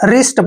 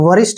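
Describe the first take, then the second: First: The word starts with an r sound. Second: The word starts with a w sound. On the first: The speaker calls it right. "रिस्ट पढ़ना है" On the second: The speaker calls it wrong. "वरिष्ठ नहीं पढ़ना है"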